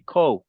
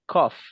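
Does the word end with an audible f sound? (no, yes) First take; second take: no; yes. First: The word ends without an f sound. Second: The word ends with a clear f sound. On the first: The speaker calls it wrong. "Don't say cough" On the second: The speaker calls it right. "Say cough with the F"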